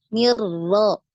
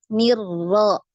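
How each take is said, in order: No difference in how they are said.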